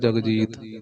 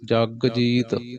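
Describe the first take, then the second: First: The word is said joined, like a name. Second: The word is split into two separate parts. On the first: The speaker calls it wrong. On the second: The speaker calls it right.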